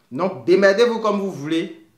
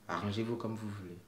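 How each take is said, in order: First: Louder, punchy and dismissive; exasperated loud outburst; blunt loud aside. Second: Much softer, falling and resigned; quiet, resigned take-back; soft resigned repeat. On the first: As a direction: throw it at them bluntly, sort it out yourselves. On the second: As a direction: drop the voice and shrug it off. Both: Real, not acted.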